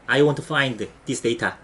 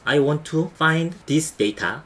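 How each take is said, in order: First: The sentence is spoken quickly and smoothly. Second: The sentence is spoken slowly, word by word. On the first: The speaker has practiced the sentence many times. "이거를 여러 번 하면 빨라져요" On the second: The speaker is still arranging the word order. "이런 식으로 천천히 하면 돼요"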